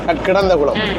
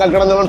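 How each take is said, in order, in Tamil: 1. பெயர் முழு முறையான வடிவில் சொல்லப்படுகிறது. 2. பெயர் சுருக்கிய பேச்சு வழக்கு வடிவில் சொல்லப்படுகிறது.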